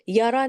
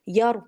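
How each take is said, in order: First: A vowel follows the r sound. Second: The r sound ends with no vowel. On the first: The speaker calls it wrong. "यारा नहीं है" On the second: The speaker calls it right. "साकिन है। यर पढ़ेंगे आप"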